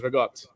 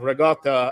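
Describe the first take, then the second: First: The final vowel is dropped. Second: The final vowel is pronounced. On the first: "everyone just says Regot" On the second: "at the end"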